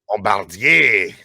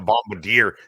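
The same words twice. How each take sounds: First: The name is said with a French pronunciation. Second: The name is said with an English pronunciation. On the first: It reflects a French Canadian background. "Bombardier is more of the French Canadian in me" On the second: It reflects how others in the conversation say it. "than the Bombardier"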